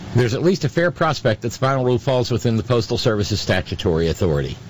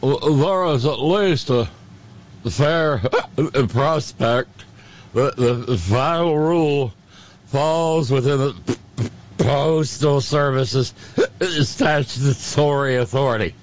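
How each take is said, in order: First: It is read in a plain normal voice. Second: It is read in a silly drunken voice.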